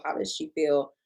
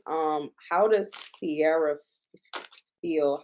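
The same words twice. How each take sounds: First: Unvoiced whispered question. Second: Said in the usual way. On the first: Shown as a demonstration. Whispering how Sierra feels about the song. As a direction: whisper it like a secret.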